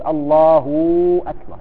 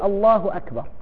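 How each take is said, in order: First: A vowel is stretched so a w sound appears. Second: No vowel is stretched and no w sound appears. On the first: The speaker calls it wrong. "لا يمدها ... لأنه إذا مدها أصبحت واو" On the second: The speaker calls it right. "إذن يقول الله أكبر"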